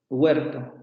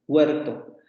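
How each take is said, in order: No difference in how they are said.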